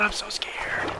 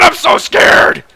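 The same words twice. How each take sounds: First: Hushed frightened whisper; scared whisper. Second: Loud, slow, breathy scream of fear. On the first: Alone among sharks, a frightened whisper. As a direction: breathe it out in fear. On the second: Fleeing sharks, a loud drawn-out scared scream. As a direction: scream it out terrified. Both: Real, not acted.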